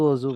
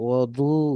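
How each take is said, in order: First: The middle consonant is a z/j-like sound. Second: The middle consonant is a d-like sound. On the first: This is how it is usually said locally. "আমরা অজু অজু বলি" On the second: This follows the Arabic spelling. "দদ দিয়ে লেখে"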